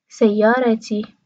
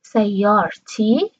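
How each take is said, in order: First: سیارتی as sayyarati, vowel after the r; Qatari, like classical Arabic. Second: سیارتی said slowly as sayyar-ti, no vowel after r; slow demo of سیارتی as sayyar-ti; two-part common pronunciation. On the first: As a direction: say سیارتی unbroken as say-ya-ra-ti. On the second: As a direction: break سیارتی into sayyar, then ti. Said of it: "عموم کشورهای عربی دو سیلابی تلفظ". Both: Shown as a demonstration.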